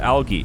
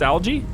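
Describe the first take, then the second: First: The g is pronounced hard, like in go. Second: The g is pronounced soft, like j. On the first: "But I've heard it said algae" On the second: "It's a soft G, right?"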